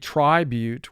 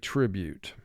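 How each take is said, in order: First: The first vowel is a long i sound. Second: The first vowel is a short i sound. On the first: The speaker calls it wrong. "it will represent its long sound. But we don't say tribute" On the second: The speaker calls it right. "we say tribute"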